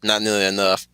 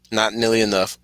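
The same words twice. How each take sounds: The two takes are said the same way.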